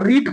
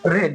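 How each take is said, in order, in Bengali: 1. স্বরধ্বনিটি 'ee' এর মতো শোনায়। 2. স্বরধ্বনিটি 'eh' এর মতো শোনায়। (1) "ভার্ব ওয়ানটাকে আমরা রিড পড়বো" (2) "ভাব টু আর ভাব থ্রিকে আমরা কি পড়বো রেড"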